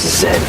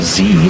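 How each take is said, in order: First: The letter is pronounced 'zed'. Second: The letter is pronounced 'zee'.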